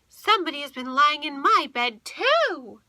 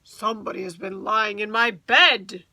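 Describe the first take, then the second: First: A medium, middle-sized bear voice. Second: A great, rough, gruff bear voice.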